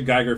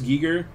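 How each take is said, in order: First: The first vowel sounds like 'eye'. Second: The first vowel sounds like 'ee'. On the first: The speaker calls it wrong. "I always pronounced it Geiger for the longest time" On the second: The speaker calls it right. "it's actually pronounced Giger"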